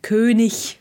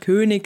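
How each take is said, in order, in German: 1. Das Wort wird deutlich gesprochen, wie auf der Bühne. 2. Das Wort wird locker gesprochen, wie im Alltag.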